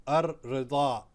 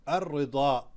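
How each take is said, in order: Both takes have the same delivery.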